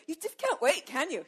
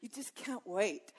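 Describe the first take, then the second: First: Playful teasing. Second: Soft, slow, tender. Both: Real, not acted. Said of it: "You are so head over heels".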